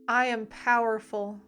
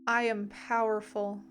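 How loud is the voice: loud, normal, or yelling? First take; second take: loud; normal. First: It is said louder than normal. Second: It is said at a normal volume.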